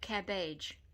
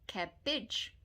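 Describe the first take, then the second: First: The last syllable has an 'ay' vowel. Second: The last syllable has a short 'ih' vowel. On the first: The speaker calls it wrong. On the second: The speaker calls it right.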